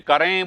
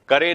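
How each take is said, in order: First: The final vowel is said through the nose. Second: The final vowel is said without nasalization. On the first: The speaker calls it right. "करें नाक से बोलते हैं" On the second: The speaker calls it wrong. "करे नहीं बोलते"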